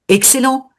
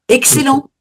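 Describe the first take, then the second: No difference in how they are said.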